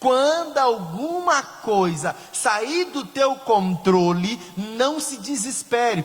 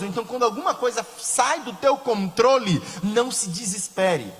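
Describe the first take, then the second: First: It is said very slowly. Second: It is said at normal speed.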